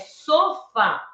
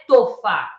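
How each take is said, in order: First: The word begins with an s sound. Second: The word begins with a t sound. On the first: The speaker calls it right. "é sofá" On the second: The speaker calls it wrong. "ela trocava o S pelo T... não é tofá"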